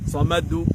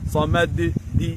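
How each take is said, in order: First: The final bounce sounds like a u vowel. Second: The final bounce sounds like an i vowel. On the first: "না" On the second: "না"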